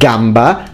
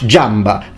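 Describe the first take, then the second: First: The word begins with a hard g sound. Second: The word begins with a j sound. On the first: This is the modern pronunciation. "with a g sound" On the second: This is an imagined future pronunciation. "because they change g into j"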